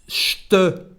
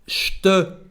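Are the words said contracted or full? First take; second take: contracted; contracted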